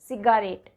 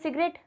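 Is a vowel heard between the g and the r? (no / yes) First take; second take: yes; no. First: A full vowel is sounded between g and r. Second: No vowel is sounded between g and r. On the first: It helps you remember the spelling. "सिर्फ याद रखने के लिए हम इसको बोल सकते हैं सिगारेट" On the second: This is how the word is normally said. "हम बोलते हैं सिगरेट, ए साइलेंट हो जाता है"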